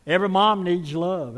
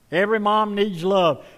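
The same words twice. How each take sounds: First: Said in the usual way. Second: Echoed louder and higher to the crowd; louder repeat. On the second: Shown as a demonstration. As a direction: say it again, with more force.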